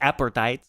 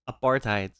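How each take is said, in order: First: The word is pronounced so it resembles appetite. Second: The word is pronounced in its standard form. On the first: The speaker calls it wrong. "It's not appetite" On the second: The speaker calls it right. "It's apartheid"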